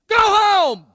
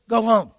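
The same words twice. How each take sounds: First: It is said loudly and forcefully. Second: It is said softly and calmly.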